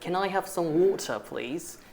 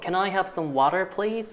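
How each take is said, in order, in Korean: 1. 영국식 억양이에요. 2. 미국식 억양이에요. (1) "영국식으로는" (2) "미국식으로는"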